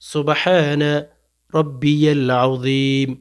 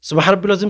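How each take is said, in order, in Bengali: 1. প্রতিটি শব্দাংশ পুরোপুরি ও ধীরে ধীরে বলা হয়েছে। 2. শব্দাংশগুলো ছোট করে ও একসাথে জড়িয়ে বলা হয়েছে। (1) "সহি শুদ্ধ করে পড়বেন। ... ধীরে" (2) "এগুলো কি পাঠ করতেছেন?"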